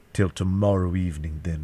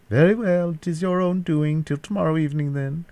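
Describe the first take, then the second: First: Said in the usual way. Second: High-pitched villain taking leave; captor's parting ultimatum. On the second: A narrator's reading. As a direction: sign off in a raised captor's voice.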